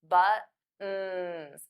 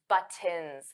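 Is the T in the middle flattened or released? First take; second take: flattened; released. First: The middle T is flat with no air pushed out. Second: The middle T is released with a puff of air. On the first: The speaker calls it right. "I always say buttons, So those T's become flat T's" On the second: The speaker calls it wrong. "I don't say buttons, That sounds very awkward"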